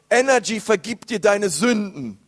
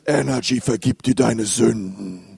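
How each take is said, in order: First: It is said in the speaker's normal voice. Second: It is said in a put-on, God-like voice.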